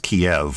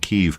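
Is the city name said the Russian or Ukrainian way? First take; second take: Russian; Ukrainian. First: The name is said the Russian way. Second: The name is said the Ukrainian way. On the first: "I learned Russian, and so I learned it as Kiev" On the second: "to pronounce it as as the Ukrainian Kiev"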